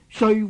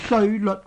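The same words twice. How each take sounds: First: The second syllable sounds like jyut, with Y. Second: The second syllable sounds like leot, with L. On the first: The speaker calls it right. "其实正確嘅读音呢系读做" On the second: The speaker calls it wrong. "一般人呢都读做"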